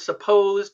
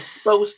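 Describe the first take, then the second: First: The first syllable is kept, giving full supposed. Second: The first syllable is dropped, giving 'sposed. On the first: The speaker talks in careful, proper English. "instead of supposed" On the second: The speaker talks in a casual, slangy way. "she's like slanging a little bit"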